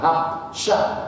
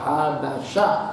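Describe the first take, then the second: First: No vowel is sounded right after the b. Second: A vowel is sounded right after the b. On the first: The speaker calls it wrong. "bukan habsyah, disukunil ba" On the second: The speaker calls it right. "di fathil ba, haba"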